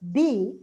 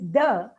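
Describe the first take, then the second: First: The word ends in a long 'ee' vowel. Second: The word ends in a short 'uh' vowel. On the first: The next word starts with a vowel. "D with a E. D when it is followed by a vowel" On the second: The next word starts with a consonant. "it is the when it's followed by a consonant"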